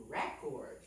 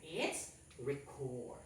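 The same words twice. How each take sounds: First: "Record" said REH-cord, stress on the first syllable; noun REcord. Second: "record" said rih-CORD, slowly, stress on the second syllable; verb reCORD. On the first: Teacher echoing the class's noun "Record" as REH-cord. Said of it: "how do you pronounce this again". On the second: Teacher confirming the class's verb "record" as rih-CORD. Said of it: "how do we pronounce this again". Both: Shown as a demonstration.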